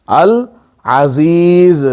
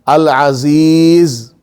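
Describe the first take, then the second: The two takes are said the same way.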